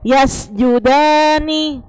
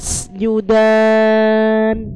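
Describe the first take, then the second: First: The word ends with a short vowel after n. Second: The word ends on the consonant n. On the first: The reading continues without stopping here. "Sebenarnya dia kan ninya kan hidup" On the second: The reading stops at this word. "Karena dia wakof, jadi ninya mati"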